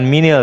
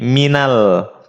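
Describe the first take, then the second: First: The vowel after min is an i. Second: The vowel after min is an a. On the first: The speaker calls it wrong. "bukan minil" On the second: The speaker calls it right. "tapi minal"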